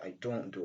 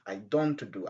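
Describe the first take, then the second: First: The t at the end of don't is dropped. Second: The t at the end of don't is pronounced. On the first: The speaker calls it right. "Donc la lettre ou bien le son T est rejeté" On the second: The speaker calls it wrong. "Au lieu de dire I don't do"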